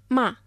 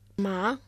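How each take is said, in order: First: It is said with the fourth tone. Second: It is said with the second tone. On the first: It means to scold. "Μα με τον τέταρτο τόνο" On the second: It means rough or hemp. "Μα με τον δεύτερο τόνο"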